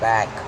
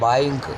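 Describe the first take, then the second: First: The vowel sounds like 'a'. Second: The vowel sounds like 'ai'. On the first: The speaker calls it right. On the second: The speaker calls it wrong.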